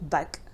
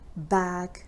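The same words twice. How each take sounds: First: The vowel is a short schwa-like sound. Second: The vowel is a long open a. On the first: The speaker calls it wrong. "So it's not bag" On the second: The speaker calls it right. "long a sound"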